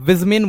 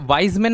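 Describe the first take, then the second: First: The first syllable has the vowel 'ee'. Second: The first syllable has the vowel 'eye'. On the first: The speaker calls it right. "विजमेन बोलेंगे" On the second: The speaker calls it wrong. "ये वाइजमेन नहीं बोलेंगे"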